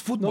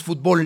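First: "fútbol" said FÚT-bol, stress on the first syllable; "fútbol" stressed on the first syllable, as Spain says it. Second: "fútbol" said fut-BOL, stress on the last syllable; "fútbol" stressed on the last syllable, as Mexico says it; Mexican stress on bol. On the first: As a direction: say "fútbol" the Spanish way, leaning on the U. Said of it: "con acento en la U". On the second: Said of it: "en México no decimos fútbol". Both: Shown as a demonstration.

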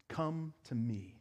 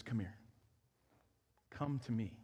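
First: Soft, slow, gentle invitation; a gentle voicing of Jesus calling; tender invitation. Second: Softer, hushed call to come; a hushed voicing of Jesus inviting the weary; tender invitation. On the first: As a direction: draw the listener in quietly, slowly. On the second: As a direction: speak it like a gentle, quiet welcome.

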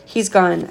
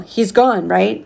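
First: Level, falling, settled reassurance; understated firm reply. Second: Anxious check. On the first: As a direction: son firmly closing the matter. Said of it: "I said firmly". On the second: Father checks driver has left. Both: A narrator's reading.

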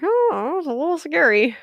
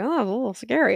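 First: Higher, louder, half-laughing echo of her words; mock scared squeak. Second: Said in the usual way. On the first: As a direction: echo her line in a high, wry squeak. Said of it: "I'm like". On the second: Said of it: "she was like".

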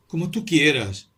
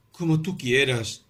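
First: Higher, louder, slow eerie repeat; mysterious tone. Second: Eerie, slow submission; mysterious tone. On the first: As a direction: stress tú, strange and knowing. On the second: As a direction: say it as if hiding a secret. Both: A narrator's reading. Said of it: "en un tono misterioso".

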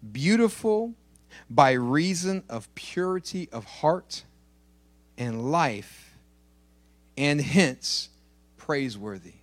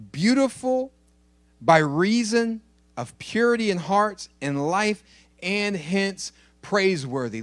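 First: Said in the usual way. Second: Beautiful stressed higher and louder on the second reading; preacher hammering "Beautiful" and "purity" home; repeated with emphasis. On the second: Shown as a demonstration. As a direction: lift and press the definition so it lands. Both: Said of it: "Did you catch that?".

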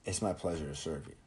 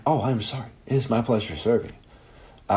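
First: Soft, quiet scripted courtesy; polite staff line. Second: Mock polite staff. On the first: Retold or imitated. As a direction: murmur it like a polite fast-food worker. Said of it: "they say". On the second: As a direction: ham up the forced politeness. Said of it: "Even if you're like".

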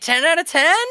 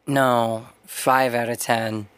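First: Imitated high, hopeful question; mock-bubbly clerk checking good news; chirpy shop clerk. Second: Low, slow deadpan imitation; mock-gloomy correction, dragged out; glum customer. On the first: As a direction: pitch it way up, delighted. Clerk mishears, delighted. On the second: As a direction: sink down low like a downbeat guy. Voices Mac correcting the clerk.

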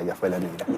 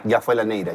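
First: Repeated much softer, low and fading; quiet echo. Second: Said in the usual way. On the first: Retold or imitated. Guest echoes his own catchphrase in a soft, low repeat. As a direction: mutter the phrase back to yourself.

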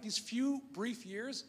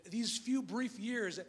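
First: These few brief years, each word slow and spaced; slow emphasis. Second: These few brief years, drawn out and deliberate; slow it right down; slow emphasis. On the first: Preacher stressing how short life is, slowly. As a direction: stretch it out, let it land. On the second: Preacher contrasting believers' brief years, slowly. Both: Acted.

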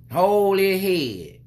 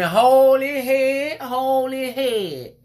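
First: Slow, high, drawn-out order to hold the head; bossy lady. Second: High, loud, slow screeching of the order; mock scream. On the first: Retold or imitated. Imitating a stranger scolding him about his son. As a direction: mimic the pushy lady, stretching each word. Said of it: "the lady looking like". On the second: Imitating a lady screaming at him down the aisle. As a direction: shriek it across the aisle like a nosy stranger. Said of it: "She screaming".

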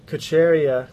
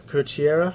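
First: "Kocheria" said ko-CHAIR-ee-a, falling at the end; tentative pronunciation. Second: "Kocheria" said ko-chee-AIR-a, rising questioningly; unsure second attempt. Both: Real, not acted. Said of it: "Something like that".

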